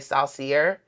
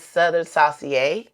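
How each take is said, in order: First: The word is pronounced in an English way. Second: The word is pronounced in a French way. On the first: "once you get to say it in the South and you read it, most people say" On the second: "if I'm saying it correctly. It's French based"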